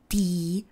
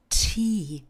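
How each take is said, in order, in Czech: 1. Hlásku t říkáme bez výdechu. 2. Hlásku t říkáme s výdechem. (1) "Neříkáme tea" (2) "Pozor na přídech u hlásky T"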